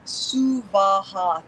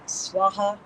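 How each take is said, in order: First: The word has three equally weighted syllables. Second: The word is said with two syllables. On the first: The speaker calls it right. "three equal weighted syllables" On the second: The speaker calls it wrong. "most commonly"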